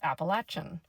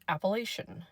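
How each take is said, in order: First: It is the pronunciation used further south. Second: It is the pronunciation used around Maryland. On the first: This is how people deeper south say it. "you get more into West Virginia and deeper south, it's Appalachian" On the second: This is how people near the Eastern Panhandle say it. "I grew up pronouncing it Appalachian"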